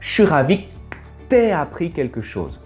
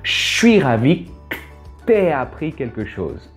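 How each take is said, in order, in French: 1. Les voyelles sont prononcées pleinement, sans contractions. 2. C'est rapide, avec des voyelles coupées et contractées. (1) "se transforme en" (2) "Ça fait beaucoup de contractions. Très rapide"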